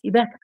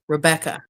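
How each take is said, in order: First: The name begins with a soft R sound. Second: The name begins with a hard R sound. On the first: "with soft R" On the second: "starts with a with a hard R"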